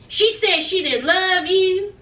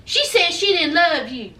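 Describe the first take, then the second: First: Slow down and lean on she; slower emphatic repeat. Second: Said in the usual way. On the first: Shown as a demonstration. Rubbing it in to Mike, slow and pointed. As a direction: hammer it home slowly, stressing she. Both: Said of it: "repeated for emphasis".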